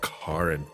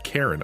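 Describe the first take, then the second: First: The name is said the show's different way. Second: The name is said the common English way. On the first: The speaker claims the name without the stereotype. "they pronounce it Karen" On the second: The speaker rejects being this kind of person. "I am not a Karen"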